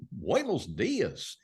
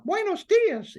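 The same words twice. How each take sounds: First: "Buenos dias" drawn out very slowly with Goofy's scoops and valleys. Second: "Buenos dias" in a much higher, louder Mickey falsetto; Mickey Mouse voice. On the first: Showing how Goofy sounds in Spanish, slow scooping delivery. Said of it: "Whereas if Goofy". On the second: Showing how Mickey sounds in Spanish, high loud falsetto. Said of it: "it's still Mickey saying that". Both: Shown as a demonstration.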